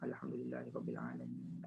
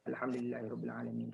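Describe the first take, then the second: First: It is recited calmly with lengthened nasal sounds. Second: It is recited quickly with short nasal sounds. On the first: This is the calm, standard reading. The speaker calls it right. "kita panjangkan dua rakaat" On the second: This is how it is often read in silent prayers. The speaker calls it wrong. "yang itu baca hadar"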